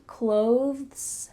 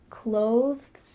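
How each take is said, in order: No difference in how they are said.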